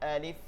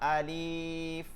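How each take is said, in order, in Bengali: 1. প্রথম স্বরটি ছোট ও দ্রুত। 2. প্রথম স্বরটি লম্বা করে টানা হয়।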